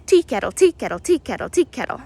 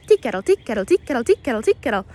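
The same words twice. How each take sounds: First: "tea kettle" sung out in three even syllables, a little louder; slow wren song imitation. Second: "tea kettle" run close together, quick and chirpy; quicker wren song imitation. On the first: Walking guide demonstrates the Carolina wren's tea-kettle call, slow and spaced. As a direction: naturalist slowly mimics the wren's song for viewers, loud chirpy imitation. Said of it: "much faster than I was just able to do it".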